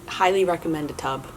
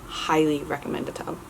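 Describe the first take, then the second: No difference in how they are said.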